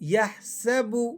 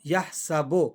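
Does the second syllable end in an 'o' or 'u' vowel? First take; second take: u; o. First: The second syllable ends in an 'u' vowel. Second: The second syllable ends in an 'o' vowel. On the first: The speaker calls it right. "ये मारूफ साउंड है बा के पेश का" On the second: The speaker calls it wrong. "बाज़ लोग मजहूल पढ़ते हैं ... ये बो नहीं है"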